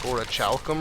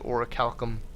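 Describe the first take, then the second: First: The 'ch' is pronounced as in church. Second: The 'ch' is pronounced as a hard k. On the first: The speaker calls it wrong. "I used to say something like orichalcum or something just because the C H in it flipped me out" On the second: The speaker calls it right. "I did finally break the habit of saying that wrong"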